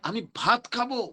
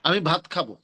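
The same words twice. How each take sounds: First: It is said with a strong, yearning tone. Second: It is said in a plain, neutral tone. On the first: The speaker strongly craves rice. "এটার মধ্যে একটা অনেক বেশি আহ ভাতের আকাঙ্ক্ষা এটা প্রকাশিত হইলো না?" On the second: It is an ordinary statement. "এটা একটা সাধারণ বাক্য।"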